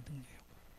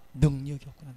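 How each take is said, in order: First: Whispered realisation. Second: Said in the usual way. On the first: Shown as a demonstration. Apostle realising his weakness, whispered to himself. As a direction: echo the line in a breathy whisper. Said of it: "repeated in whisper". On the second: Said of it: "repeated realisation".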